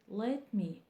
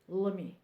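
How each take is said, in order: First: Both words are pronounced fully and separately. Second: The two words are run together and reduced. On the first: The speaker calls it wrong. "it's wrong, and they won't understand you" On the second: The speaker calls it right. "Say, as a native speaker"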